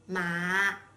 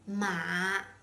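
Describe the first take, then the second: Both takes have the same delivery.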